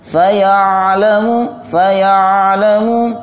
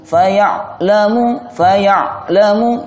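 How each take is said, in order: First: The ain sound keeps flowing without a break. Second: The ain sound is cut off abruptly. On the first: The speaker calls it right. "Harus mengalir" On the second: The speaker calls it wrong. "kalau dibaca faya'lamu faya'lamu terputus"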